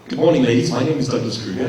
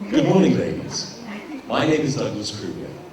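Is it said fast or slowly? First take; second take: fast; slowly. First: It is said quickly and compactly. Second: It is said slowly and spread out.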